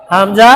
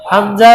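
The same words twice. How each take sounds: The two takes are said the same way.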